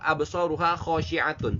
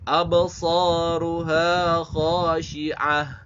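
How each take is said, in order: First: The last word ends with a full 'atun' sound. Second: The last word ends with a breathy 'ah' sound. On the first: The reading continues without stopping. "kalau secara tekstual" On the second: The reader stops at this word. "kalau kita wakafkan maka akan uh, bunyinya seperti ini"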